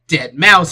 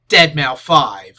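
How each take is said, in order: First: The name ends with the word mouse. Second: The name ends with the number spoken aloud.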